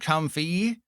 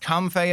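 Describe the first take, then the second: First: The word ends with an 'ee' sound. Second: The word ends with an 'ay' sound. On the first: The speaker calls it wrong. "and not comfy" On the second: The speaker calls it right. "it's named after a lei"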